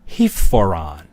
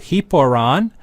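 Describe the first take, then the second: First: An aspirated p before the vowel. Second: A plain p before the vowel. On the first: "to make the enunciation smoother" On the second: "the omicron drops out"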